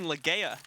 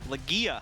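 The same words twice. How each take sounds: First: The name is said with an 'ay' vowel sound. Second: The name is said with an 'ee' vowel sound. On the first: The speaker calls it wrong. "You're saying Legea" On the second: The speaker calls it right. "It's two E's, not A Y"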